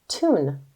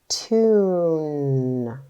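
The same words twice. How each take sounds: First: It is blended and said quickly as one word. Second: It is sounded out slowly, sound by sound. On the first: "Say it fast" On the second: "Are you ready to sound it out?"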